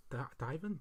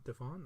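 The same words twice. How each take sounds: First: "divan" said as DIE-vun; alternative pronunciation. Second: "Divan" said as di-VAN, rising; alternative pronunciation. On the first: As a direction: try "divan" with a long i, stress first. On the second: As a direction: try "Divan" with short i, stress on second syllable. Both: Shown as a demonstration. Trying two pronunciations of divan.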